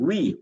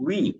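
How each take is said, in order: The two takes are said the same way.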